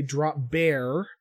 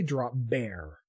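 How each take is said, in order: First: "drop bear" with the R sounded at the end; r-coloured drop bear. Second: "drop bear" with the final R dropped, like "drop beah"; Aussie drop bear. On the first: Host demonstrating the wrong way to say drop bear, R sounded. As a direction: say "drop bear" rolling the final R, American style. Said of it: "you don't say drop bear". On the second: Host demonstrating the Aussie drop bear, final R dropped. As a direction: say "drop bear" letting the last R fall away. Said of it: "you kinda drop off the R at the end of a word". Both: Shown as a demonstration.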